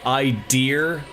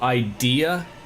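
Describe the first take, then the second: First: The final 'a' sound is altered, upstate style. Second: The final 'a' sound is said clearly. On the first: "do people from upstate New York say idea" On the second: "instead of idea? Are they incapable of saying the A?"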